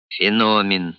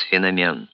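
First: Феномен said as feNOmen, stress on the middle O. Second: Феномен said as fenomEN, stress on the final E; феномен stressed on the last syllable. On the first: Professor correcting the colonel's stress, middle O stressed. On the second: Petyunya recalling the word, stress on the final syllable. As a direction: put the stress on the end, fenomEN. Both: Acted. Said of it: "поправил его профессор".

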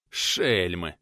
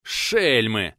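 First: Panting, lower and spent; breathless after the fight; heavy breathing. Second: Hateful breath. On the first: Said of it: "Тяжело дыша". (тяжело дыша, ниже) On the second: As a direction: spit it out with hatred, louder. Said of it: "С ненавистью выдохнул он". (с ненавистью выдыхает) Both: Acted.

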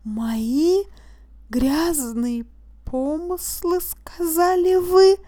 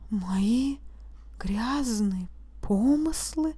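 First: Rising higher and louder to an incredulous question; disbelief. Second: Softer, slow, sinking mumble; mumbled, crestfallen. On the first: Accused throwing the judge's words back, higher and louder in disbelief. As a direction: climb into outraged disbelief. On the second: Accused repeating the charge, a soft dazed mumble. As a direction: let the voice drop in disbelief. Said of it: "пробормотал упавшим голосом". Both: A narrator's reading.

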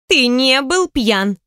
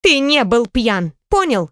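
First: БЫЛ stressed, very slow and higher; stubborn stress on БЫЛ. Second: ТЫ stressed, slow and higher. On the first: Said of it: "упрямо проворчала она". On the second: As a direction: lean on ТЫ, slowly. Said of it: "сердито хлопнула ладонью". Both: A narrator's reading.

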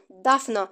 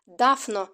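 First: Even louder call through the door. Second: Calling her name through the door; loud call. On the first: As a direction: shout her name louder than before. (ще гучніший поклик) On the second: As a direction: bellow her name, louder still. (гучний поклик крізь двері) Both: A narrator's reading. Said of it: "іще голосніше".

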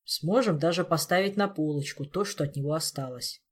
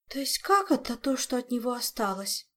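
First: Dour, matter-of-fact grim remark; gloomy Elmar. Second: Higher-pitched gasp of horror; horrified Olga. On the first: Elmar grimly describing what remains, gloomy and understated. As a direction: keep it dark and unexcited. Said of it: "мрачно вернул Элмар". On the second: Olga learning only remains are left, horrified high question. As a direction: question it in appalled disbelief. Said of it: "в ужасе ахнула Ольга". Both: Acted.

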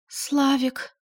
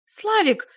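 First: Испуганно, выше обычного; робко окликнуть мужа; дрожащим голосом. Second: Высокий громкий вопль имени; истерично позвать мужа; визгливый крик. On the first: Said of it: "Дрожащим голосом она спросила". (испуганная Валюшка зовёт мужа, выше) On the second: Валя визжит, требует стрелять. (Валя визгливо кричит мужу, очень высоко) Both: A narrator's reading.

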